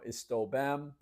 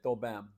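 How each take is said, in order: First: The first word is said in full, two syllables. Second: The first word is cut to one syllable. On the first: "instead of saying" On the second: "they would say"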